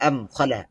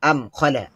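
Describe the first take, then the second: Both takes have the same delivery.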